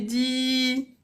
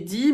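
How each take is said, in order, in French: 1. La voyelle est longue. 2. La voyelle est courte. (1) "mais prolongé" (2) "on a une kasra, ça fait di"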